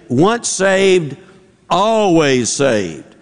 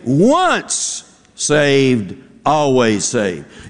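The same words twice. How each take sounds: First: The stress falls on always. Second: The stress falls on once saved.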